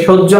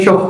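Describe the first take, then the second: First: সহ্য said "shoj-jo"; h-jophola as j. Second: সহ misread as "shoh-ho"; student mispronunciation. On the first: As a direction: say সহ্য with a doubled j. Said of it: "না পড়ে". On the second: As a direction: say সহ with a doubled h instead of j. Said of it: "এরকম পড়ে ফেলে". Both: Shown as a demonstration.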